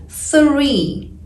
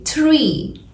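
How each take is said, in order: First: "three" slowly with a clear th; correct three. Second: "tree" with a hard t, no th; wrong tree for three. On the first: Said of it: "native speakers say three". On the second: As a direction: say "tree" like a learner, t not th. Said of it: "Most English learners say tree". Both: Shown as a demonstration.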